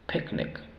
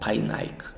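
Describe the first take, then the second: First: The vowels are said as short sounds. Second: The vowels are said as long 'eye' sounds. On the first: The speaker calls it right. "Aquí tiene que sonar sonido corto" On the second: The speaker calls it wrong. "aquí no podemos decir Painek o Painaik, no"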